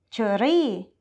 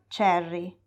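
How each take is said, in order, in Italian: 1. Viene pronunciata con un accento thailandese. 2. Viene pronunciata con un accento inglese. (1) "un thailandese dirà cherry" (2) "e non cherry"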